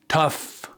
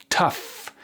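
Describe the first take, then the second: No difference in how they are said.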